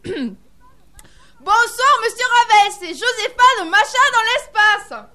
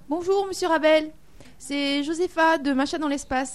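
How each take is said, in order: First: It is said loudly. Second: It is said at normal volume.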